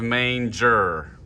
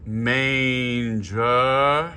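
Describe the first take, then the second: First: Manger with a closed, clipped final vowel; the wrong way to say manger, closed ending. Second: Manger with open final uhr, drawn out; correct manger. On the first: Choir director showing the vowel to avoid, quick demo. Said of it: "instead of manger". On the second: Choir director showing the right vowel, drawn-out demo. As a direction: say manger slowly, ending on a clear uhr. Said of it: "instead of". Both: Shown as a demonstration.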